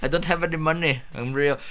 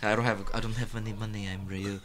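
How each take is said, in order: First: A hint of an Indian accent, repeated through a laugh; lightly voiced Indian accent; faint Indian accent said again; mock Indian accent. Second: Put-on lightly done Indian accent, soft and low; a hint of an Indian accent, pleading; quiet Indian accent with a touch of pleading; mock Indian accent. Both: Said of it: "I gave him an Indian accent".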